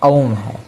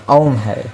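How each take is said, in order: The two takes are said the same way.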